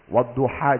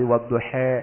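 First: The final vowel is an open 'a' sound. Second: The final vowel is shifted toward an 'e' sound. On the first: "Wadduha jadi wadduhe" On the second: "Gak asal ee doang"

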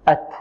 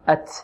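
First: The final t is crisp with no hiss. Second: The final t has an s-like hiss. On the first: The speaker calls it right. "إذن نقول هكذا" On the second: The speaker calls it wrong. "البعض يشرب التاء رائحة السين"

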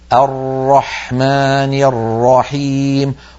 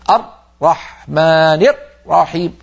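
First: The r keeps a small flow of sound. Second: The r is closed tightly and cuts off. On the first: The speaker calls it right. "فتحة ضئيلة يمر منها جزء الصوت" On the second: The speaker calls it wrong. "لما ينطق الراء يقفل مخرجها جدا ويقطع الصوت"

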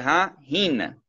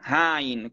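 First: The h of 'hin' is kept, stressing 'hin'. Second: The two words merge with no second h. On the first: The speaker calls it right. "è ha hin. L'enfasi è posta sulla parola in" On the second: The speaker calls it wrong. "non hain, come sento a volte qualcuno produce"

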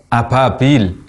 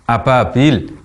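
First: The consonant sounds like a p. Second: The consonant sounds like a p.

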